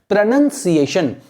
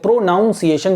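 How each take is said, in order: First: The second syllable sounds like 'nun'. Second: The second syllable sounds like 'noun'. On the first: The speaker calls it right. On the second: The speaker calls it wrong.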